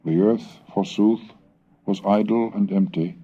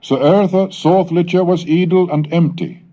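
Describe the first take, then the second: First: Said in the usual way. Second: Put-on "litcha" sounded as old Saxon, much higher and louder than the gloss; Old English reading. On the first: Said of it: "In beginning shaped God heaven and earth". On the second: Shown as a demonstration. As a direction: declaim "So earth soth litcha" as Old English in a raised voice. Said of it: "the knowledge of the Anglo-Saxon dialect".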